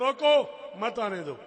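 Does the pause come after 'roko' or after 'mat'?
after roko. The pause comes after 'roko'.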